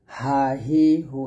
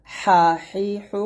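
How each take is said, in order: First: Lower, light হা, হি, হু; thin ha. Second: হা, হি, হু squeezed through a tight throat; narrow, pressed ha. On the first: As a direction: say each হা without throat pressure. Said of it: "হা পাতলা করে". (হা হি হু পাতলা করে) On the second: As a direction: press each হা finely. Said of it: "চিকুন করে চাপ দিয়ে বলতে হবে". (হা হি হু চিকুন চাপ দিয়ে) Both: Shown as a demonstration.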